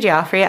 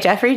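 First: The first syllable sounds like 'Joff'. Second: The first syllable sounds like 'Jeff'.

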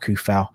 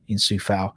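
First: The name begins with a k sound. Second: The name begins with an s sound. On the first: The speaker calls it right. "so it should be Kufal rather than" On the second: The speaker calls it wrong. "No one's really sort of found out how to pronounce it properly"

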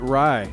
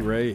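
First: The name's vowel sounds like in 'eye'. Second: The name's vowel sounds like in 'day'. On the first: The speaker calls it right. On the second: The speaker calls it wrong.

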